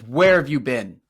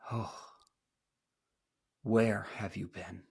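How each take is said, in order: First: It sounds angry and threatening. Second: It sounds soft and not threatening.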